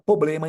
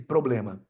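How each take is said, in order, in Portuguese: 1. O R depois do P é apagado. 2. O R depois do P é pronunciado. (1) "Ele subtraiu o R" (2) "em vez de"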